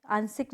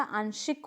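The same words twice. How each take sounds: First: आंशिक said aan-sik with s; wrong pronunciation. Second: आंशिक said aan-shik with sh; correct pronunciation. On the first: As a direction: demonstrate the mistake आंशिक as aansik. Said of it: "नहीं होता". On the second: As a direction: model आंशिक as aanshik. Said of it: "होता है". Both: Shown as a demonstration.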